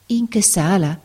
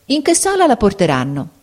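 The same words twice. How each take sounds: First: Amazed. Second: Said in the usual way. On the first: Acted. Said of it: "ripeté la barberina maravigliata".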